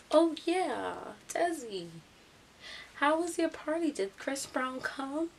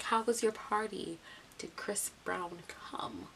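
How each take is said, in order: First: High, loud mock-eager taunt; loud calling out. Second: Deliberate repeat. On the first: Ralph asking Desi about the party, loudly taunting. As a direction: call it across to her, stretching the ending. Imitating classmate calling out teasing question. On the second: Retold or imitated. Ralph repeating himself after her "huh", slow and deliberate. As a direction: repeat it pointedly, easing down and stretching out.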